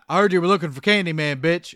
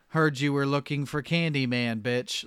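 First: It is delivered with energy and punch. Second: It is delivered flatly without punch.

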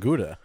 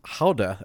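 First: Gouda is said with an English pronunciation. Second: Gouda is said with a Dutch pronunciation. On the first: The speaker calls it wrong. "and not Gouda" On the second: The speaker calls it right. "the cheese is pronounced Gouda"

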